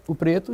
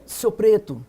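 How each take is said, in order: First: Said in the usual way. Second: Short, understated name-calling as an example; mock racist insult. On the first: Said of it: "sem problema". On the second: Shown as a demonstration. Activist shows panel how racists loaded the word, mock insult. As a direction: demonstrate a slur-like tone, mildly. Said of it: "uma tonalidade racista".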